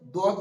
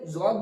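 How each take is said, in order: First: It begins with a d-like sound. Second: It begins with a z-like sound. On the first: "দদ বলে" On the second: "অনেকে জদ বলে"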